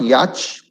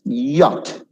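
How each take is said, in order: First: Yacht said with a ch at the end, YATCH; yacht ending in ch, the form to avoid; wrong yacht. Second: Yacht said YAT with a plain t; yacht rhyming with hot, no ch. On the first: Teacher showing students the wrong yacht. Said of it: "It's not yacht". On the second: Teacher giving students the right yacht, YAT. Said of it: "It's yacht". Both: Shown as a demonstration.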